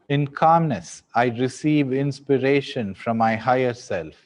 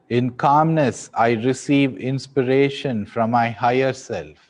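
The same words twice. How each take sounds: The two takes are said the same way.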